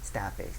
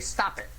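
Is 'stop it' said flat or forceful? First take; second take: flat; forceful. First: It is said flatly, without any feeling. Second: It is said forcefully, with strong feeling. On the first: The words are only mouthed without meaning. The speaker calls it wrong. "you don't just stop it. You know, that, that doesn't mean anything" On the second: The speaker truly means it. The speaker calls it right. "Like that. Those are your magic words. Stop it with two exclamation points"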